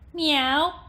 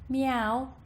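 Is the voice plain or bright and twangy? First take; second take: twangy; plain. First: The voice has a bright, piercing twang. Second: The voice has no bright twang. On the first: "and then with twang" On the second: "without and then with twang"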